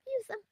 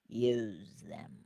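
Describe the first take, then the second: First: High use them. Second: Low, softer take of Use; low use them. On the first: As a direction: Use said much higher, softer. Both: Shown as a demonstration.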